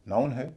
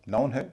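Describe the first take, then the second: No difference in how they are said.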